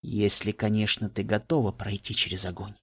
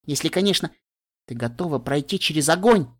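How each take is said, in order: First: Low, softer, ominous «ты готова пройти через огонь»; dark and ominous. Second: A carefree warning tossed off happily; cheerful. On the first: The same warning echoing darkly in her head, low and hushed. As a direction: let the words sink like a shadow. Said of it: "Тёмная тень захлестнула меня". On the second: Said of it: "объявила она радостно". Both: A narrator's reading.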